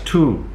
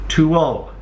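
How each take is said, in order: First: The final L sound is left off. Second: The final L sound is clearly pronounced. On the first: The speaker calls it wrong. "they always leave off the last part of the the sound" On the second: The speaker calls it right. "get the end of it in"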